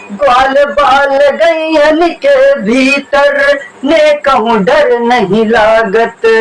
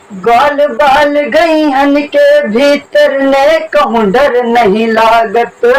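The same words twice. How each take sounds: Both takes have the same delivery.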